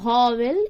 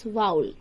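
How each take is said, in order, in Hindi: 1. शब्द एक पूरे 'wel' अक्षर से खत्म होता है। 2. शब्द एक छोटी 'ul' ध्वनि से खत्म होता है। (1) "इट्स नॉट" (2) "एक्चुअल प्रोनाउंसिएशन"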